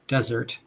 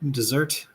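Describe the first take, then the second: First: The stress is on the first syllable. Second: The stress is on the second syllable. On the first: It means a dry place. "desert as a dry place" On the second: It means to abandon. "desert to abandon"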